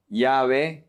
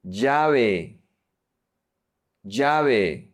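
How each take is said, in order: First: Llave starting on a soft y, "ya-ve". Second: Llave starting on a hard j, "ja-ve"; j sound. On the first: Teacher showing the softer option, llave with soft ll. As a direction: say the ll in llave like y in yes. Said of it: "do the soft one". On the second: Teacher modelling Colombian llave for learners, hard j sound. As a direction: say the ll in llave like English j. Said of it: "focus on the j sound". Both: Shown as a demonstration.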